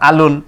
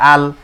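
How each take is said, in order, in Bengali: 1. শব্দটি -un দিয়ে শেষ হয়। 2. শব্দটি l ব্যঞ্জন দিয়ে শেষ হয়। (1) "দুই পেশে না থামিলে যেমন আছে তেমন করে পড়তে হয়" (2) "দুই পেশে থামিলে সাকিন ধরে পড়তে হয়"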